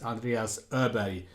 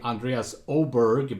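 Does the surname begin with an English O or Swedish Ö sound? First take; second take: Swedish Ö; English O. First: The surname begins with a Swedish Ö vowel. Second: The surname begins with an English-style O vowel. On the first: This is the name's native pronunciation. The speaker calls it right. "the correct pronunciation" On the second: This is how many English speakers say it. The speaker calls it wrong. "some of you are saying"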